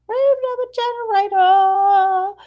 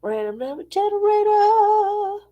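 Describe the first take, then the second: First: Higher, louder announcer call. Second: Higher, sustained announcer call. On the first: Announcing the segment again higher and louder. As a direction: boom it out again like a host. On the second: Announcing the random number generator segment in a higher voice. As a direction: announce it like a game show. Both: Pretend. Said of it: "get to our random number generator".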